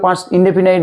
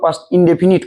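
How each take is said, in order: First: The last syllable rhymes with 'night'. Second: The last syllable rhymes with 'knit'. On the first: The speaker calls it wrong. "আসলে past ইনডেফিনাইট নয়" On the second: The speaker calls it right. "উচ্চারণটা প্রকৃতপক্ষে past ইনডেফিনিট করবে"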